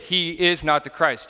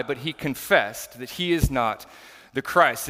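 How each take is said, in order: First: "is" leaned on, slowed, falling firmly on "Christ"; slow, deliberate stress on "is" in "He is not the Christ"; emphatic denial. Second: Said in the usual way. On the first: Shown as a demonstration. Pastor stressing John's denial to the congregation, stress on "is". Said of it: "to emphatically state". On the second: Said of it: "the redundancy of that language is to emphatically state".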